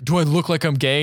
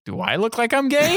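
First: Slightly raised, mildly indignant retort; retold offended question. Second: Much higher, hammed-up indignant question; high incredulous retort. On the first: Student answering the pickup, mildly offended retelling. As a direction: ask it with mock offense, fairly contained. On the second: Lawyer throwing the question back, high mock incredulity. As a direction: shoot the pitch right up in mock disbelief. Repeated, escalated retold question.

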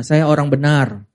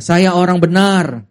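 First: Said in the usual way. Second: Slow, firm declaration; with conviction. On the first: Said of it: "Bilang sebelahnya". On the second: Shown as a demonstration. Congregation declaring to a neighbour, with conviction. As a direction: look them in the eye and mean it. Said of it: "Coba dengan yakin lihat matanya".

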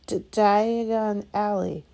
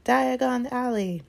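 First: "Diagon Alley" choked out slow and loud through a cough. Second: "Diagon Alley!" shouted high, loud and slow. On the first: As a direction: sputter "D-, Diagon Alley" around a mouthful of ash. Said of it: "he coughed". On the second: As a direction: call out "Diagon Alley!" into the roaring flames. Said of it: "stepped right into it and shouted". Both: A narrator's reading.

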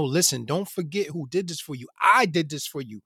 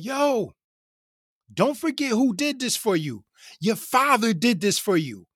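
First: Said in the usual way. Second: Imitating a man hollering his message; retold yell. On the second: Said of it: "he, he yells out".

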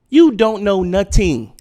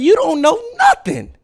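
First: Slow, firm, each word weighted: You don't know nothing; slow emphatic repeat. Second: Much higher, louder shout; yelled at the audience. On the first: Repeating the point to viewers, slow and heavy. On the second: Ranting at viewers who think they know everything, shouting. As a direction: blast it at them. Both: Real, not acted.

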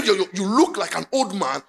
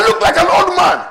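First: Said in the usual way. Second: Higher mock voice with a laugh; mock vain man. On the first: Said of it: "preacher restating plainly". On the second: Preacher mimics suitor, higher laughing complaint. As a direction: play the vain man worrying. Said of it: "So he said".

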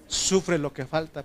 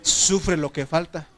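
First: Said in the usual way. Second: "Sufre lo que falta" said slowly, rising on "Sufre"; emphatic slow proclamation. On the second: Shown as a demonstration. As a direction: announce "Sufre lo que falta" as the church's new name, stretched out. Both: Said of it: "¿cómo le pondríamos?".

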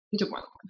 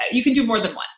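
First: Soft whispered aside; whispered repeat. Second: Said in the usual way. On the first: Real, not acted. Host whispering the reassurance again to guest. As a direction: whisper it under your breath.

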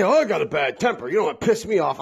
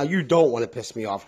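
First: Imitating someone bragging about their bad temper; a lightly mocking boast; mock tough talk. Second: Said in the usual way. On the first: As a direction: poke fun at the tough-guy warning. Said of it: "people always say". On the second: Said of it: "I'm telling you right now".

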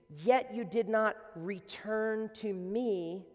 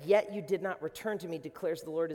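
First: Slow, weighty "Yet you did not return to me"; slow solemn refrain; slow emphasis. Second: Said in the usual way. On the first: Shown as a demonstration. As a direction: drag it out so it lands.

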